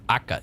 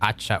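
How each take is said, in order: First: The middle consonant is a k sound. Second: The middle consonant is a ch sound. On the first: "or Aka even" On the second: "If it's with C H, I would guess it's more pronounced more like Acha"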